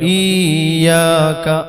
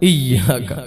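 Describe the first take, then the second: First: The first vowel is stretched long. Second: The first vowel is short before a doubled y. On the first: The speaker calls it wrong. "ഈയാക്ക ഈ നീട്ടിയിട്ട് ഓതും, അത് തെറ്റാണ്" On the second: The speaker calls it right. "ഈയാക്ക അല്ല ഇയ്യാക്ക"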